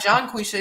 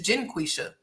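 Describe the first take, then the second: First: The first syllable sounds like 'John'. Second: The first syllable sounds like 'Jen'. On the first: The speaker calls it wrong. "we didn't say it right. It's not John Quisha" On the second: The speaker calls it right. "it's Jen Quisha"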